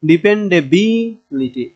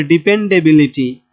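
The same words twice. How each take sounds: First: ডিপেন্ডেবিলিটি slowly, বি stretched and raised; drawn-out ডিপেন্ডেবিলিটি peaking on বি; stress on বি. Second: Said in the usual way. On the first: Shown as a demonstration. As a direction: lean hard on বি in ডিপেন্ডেবিলিটি, then drop litti. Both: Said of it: "এই বি এ এসে জোর দেব".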